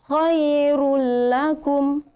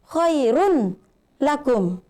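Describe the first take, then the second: First: The n merges into the following l sound. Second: The n is pronounced clearly before the l. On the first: The speaker calls it right. "Jadi dzalikum khairul lakum" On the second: The speaker calls it wrong. "Jadi jangan mengatakan khairun lakum"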